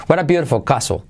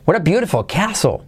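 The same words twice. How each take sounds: First: "castle" as CA-so, no glide; pure A variant. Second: "castle" as KE-A-so, higher pitched; preferred glide variant. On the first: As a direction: say "castle" with a plain A and silent T. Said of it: "puedes decir queso o caso". ("castle" dicho "caso") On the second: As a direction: lift the sentence and glide E to A in "castle". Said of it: "Yo digo más queso". ("castle" dicho "queaso", más agudo) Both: Shown as a demonstration.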